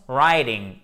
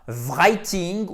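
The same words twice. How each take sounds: First: "writing" with silent w, starting on R; American "writing", tapped t, no w sound; correct pronunciation. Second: "writing" with the w voiced as V, VRY-ting; slow, loud mistaken "writing" starting VR; mock learner error, "writing" as vry-ting; wrong pronunciation. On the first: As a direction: say "writing" slowly as RYE-ding. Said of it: "ça se prononce writing et non pas". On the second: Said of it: "et non pas writing". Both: Shown as a demonstration.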